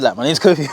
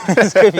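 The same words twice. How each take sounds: First: Said in the usual way. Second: Laughing. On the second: Retold or imitated. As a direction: repeat it, laughing. Repeated with a laugh.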